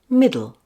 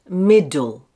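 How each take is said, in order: First: The middle d is soft and very short. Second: The middle d is hard and longer. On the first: The speaker calls it right. "make it very gentle and short. Like this" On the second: The speaker calls it wrong.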